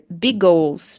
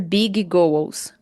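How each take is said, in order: First: Spoken smoothly with the two G sounds merged. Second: Spoken with both G sounds said separately. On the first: "Você pode dizer big goals" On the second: "Não precisa dizer big goals"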